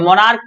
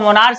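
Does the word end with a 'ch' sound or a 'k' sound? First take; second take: k; ch. First: The word ends with a 'k' sound. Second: The word ends with a 'ch' sound. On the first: The speaker calls it right. "मोनार्क पढ़ेंगे" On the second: The speaker calls it wrong. "इसको मोनार्च नहीं पढ़ेंगे"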